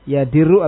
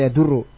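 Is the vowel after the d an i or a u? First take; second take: i; u. First: The vowel after the d is i. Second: The vowel after the d is u. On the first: "Bikasri dal, dengan kasrah dalnya" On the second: "ataupun bommah dalnya"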